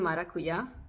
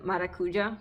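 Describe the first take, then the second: First: The word is said with a Y sound. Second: The word is said with a J sound. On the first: The speaker calls it right. "but it's actually maracuya" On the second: The speaker calls it wrong. "everyone said maracuja"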